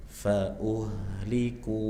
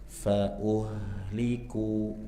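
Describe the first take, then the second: The two takes are said the same way.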